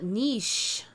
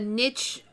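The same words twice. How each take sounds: First: It uses the newer, recently popular pronunciation. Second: It uses the older, long-standing pronunciation. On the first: This is how many people say the word now. "a lot of people now call it niche" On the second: This is how the word was said in the past. "it was always a niche"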